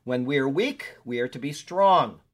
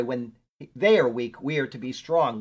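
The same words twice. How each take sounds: First: Said in the usual way. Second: "they" hit louder as the correction; stress on they. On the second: Shown as a demonstration. Preacher correcting himself, stressing "they". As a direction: lean on "they" to fix the slip. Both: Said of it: "Or, I'm sorry".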